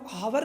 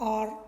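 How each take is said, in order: First: The word begins with an h sound. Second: The word begins with a vowel sound. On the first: The speaker calls it wrong. "अब इसे हम हावर नहीं बोलते" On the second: The speaker calls it right. "हम इसे बोला आर"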